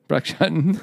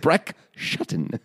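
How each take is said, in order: First: The name is said casually, like an ordinary name. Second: The name is said with careful, exaggerated enunciation. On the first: "like it's a normal name" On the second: "You sound like you're teaching someone to enunciate their words"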